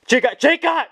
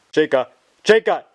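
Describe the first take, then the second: First: Shouting over her. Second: Said in the usual way. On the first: Acted. [name] cuts in, louder.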